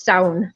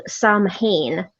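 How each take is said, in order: First: "Samhain" said SOW-in, rhymes with clown, no m or h; "Samhain" with the Irish ow sound, one smooth word; Irish pronunciation. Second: "Samhain" read as spelled, SAM-hane; "Samhain" said letter by letter like English, sam-HAYN; wrong spelling-pronunciation. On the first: Teaching friends the Irish way: "Samhain" as sow-in. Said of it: "usually in Irish, it's". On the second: Tells friends the wrong way it looks: "Samhain" as sam-hane. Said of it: "they tend to pronounce it incorrectly". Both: Shown as a demonstration.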